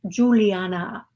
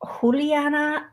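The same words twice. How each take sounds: First: The name is said with a plain English pronunciation. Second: The name is said with a foreign pronunciation.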